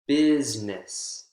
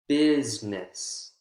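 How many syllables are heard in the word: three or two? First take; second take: two; two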